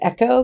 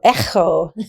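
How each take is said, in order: First: The middle sound is a plain hard k. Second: The middle sound is a throaty rasp like loch. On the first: "I actually prefer just saying echo because it's a little easier" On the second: "if you actually pronounce this correctly, it's like the sound of loch"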